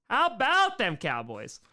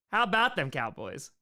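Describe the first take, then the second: First: Stretched, higher "about"; slow rallying line, leaning on "about"; catchphrase punch. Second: Said in the usual way. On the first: Real, not acted. Repeats catchphrase with more punch.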